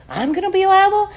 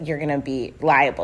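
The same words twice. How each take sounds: First: High, indignant mock question; incredulous echo. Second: Said in the usual way. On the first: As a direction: throw it back in high-pitched disbelief.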